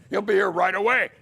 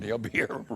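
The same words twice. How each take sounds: First: Higher, louder and rushed, nervous promise; panicky reassurance. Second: Said in the usual way. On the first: Retold or imitated. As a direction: blurt it out fast to cover for the absent boss. Stalling judge, lawyer missing.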